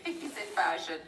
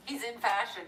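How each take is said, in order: First: "he's in fashion" breathed in a whisper after a laugh; conspiratorial whisper through a giggle; whispered insinuation. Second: Said in the usual way. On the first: Real, not acted. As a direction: whisper it like a juicy secret. Laughing, whispered knowing repeat.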